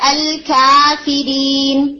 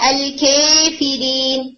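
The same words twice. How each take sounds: First: The long vowel is a fully open 'a'. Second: The long vowel is tilted strongly toward 'e'. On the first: "فتح جو ہے وہ ہے" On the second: "امالہ ہے"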